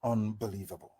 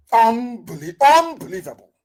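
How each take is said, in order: First: Low, very soft mutter; stunned disbelief. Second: High, loud, broken restart; outraged disbelief. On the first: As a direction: say it under your breath, appalled. Stunned disbelief, first take. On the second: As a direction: burst out, appalled. Disbelief repeated louder, second take. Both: Real, not acted.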